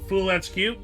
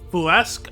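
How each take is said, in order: First: The ending is spelled out as separate letters. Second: The ending is blended into one French-like word. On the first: The speaker calls it wrong. "how did you pronounce it?" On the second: The speaker calls it right. "it's foolesque"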